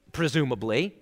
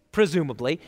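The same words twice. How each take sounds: The two takes are said the same way.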